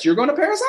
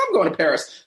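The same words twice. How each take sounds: First: Excited insistence. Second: Said in the usual way. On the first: Retold or imitated. Denise excitedly insists on Paris.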